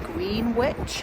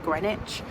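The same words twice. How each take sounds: First: The word is sounded out as it is spelled. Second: The word is said in its usual spoken form. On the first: The speaker calls it wrong. "it's actually spelled like Greenwich" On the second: The speaker calls it right. "but you pronounce it Greenwich"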